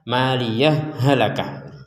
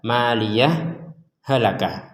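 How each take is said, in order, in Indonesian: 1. Bunyi h menyatu tanpa jeda. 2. Jeda singkat memisahkan kedua kata. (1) "Yang kedua boleh juga dibaca" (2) "jadi saktah"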